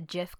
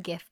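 First: The word begins with a soft J sound. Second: The word begins with a hard G sound. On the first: This was the speaker's former way of saying it. "I was a GIF girl for years" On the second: This is the speaker's current way of saying it. "And now I am a GIF person"

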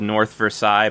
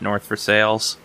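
First: Versailles is said the French-like way. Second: Versailles is said the local way. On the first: This is how the spelling suggests it is said. "there's literally an area called North Versailles" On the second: This is how people who live there say it. "anyone who lives around here calls it North Versailles"

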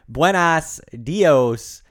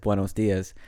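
First: The greeting is said with swapped, garbled vowels. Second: The greeting is said with standard Spanish vowels. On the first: "but it's like buenas dios" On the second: "he says buenos dias"

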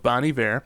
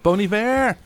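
First: The first word is said like 'bon'. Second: The first word is said like 'bone'. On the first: The speaker calls it wrong. "I always say bon" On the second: The speaker calls it right. "Bone. I need to say bone"

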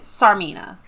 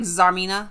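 First: The name begins with an s sound. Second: The name begins with a z sound. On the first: The speaker calls it wrong. "I was pronouncing it Sarmina" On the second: The speaker calls it right. "based on the Russian, like, pronunciation of Tsar"

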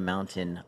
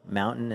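First: The middle T is clearly pronounced. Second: The middle T is silent. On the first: This is the way it is said outside Utah. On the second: This is the local Utah way of saying it.

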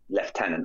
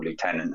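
First: Lieutenant is said with a non-American pronunciation. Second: Lieutenant is said with an American pronunciation.

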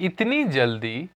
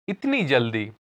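Both takes have the same delivery.

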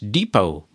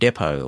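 First: It is said in an American accent. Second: It is said in a non-American accent.

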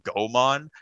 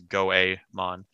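First: The name is said with an English-style pronunciation. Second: The name is said with a Japanese-style pronunciation. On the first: The speaker calls it wrong. "I called him Goemon because I didn't know how to speak like Japanese pronunciation" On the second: The speaker calls it right. "but it's Goemon"

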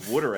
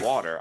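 First: It is said with a Philadelphia Delco accent. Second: It is said without a Philadelphia accent.

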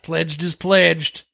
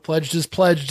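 First: It is said in a Southern accent. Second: It is said in the speaker's plain accent.

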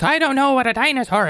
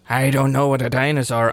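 First: The voice is pitched noticeably higher. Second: The voice is at a normal pitch.

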